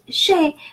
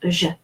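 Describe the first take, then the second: First: The vowel is a closed 'ay' sound. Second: The vowel is a short neutral 'uh' sound. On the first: The speaker calls it wrong. "we don't pronounce it je" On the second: The speaker calls it right. "but we pronounce it je"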